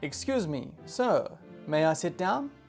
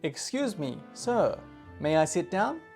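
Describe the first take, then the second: The two takes are said the same way.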